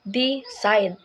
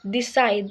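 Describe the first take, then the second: First: The stress is on the first syllable. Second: The stress is on the second syllable. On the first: The speaker calls it wrong. "not decide" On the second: The speaker calls it right. "the stress falls on the second syllable"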